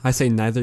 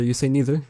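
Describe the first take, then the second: First: Neither said with NYE; neither as "nai-ther", like the Canadian speaker's own. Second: Neither said with NEE; neither as "nee-ther", the other speaker's way; your neither. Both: Shown as a demonstration. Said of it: "there's an accent thing".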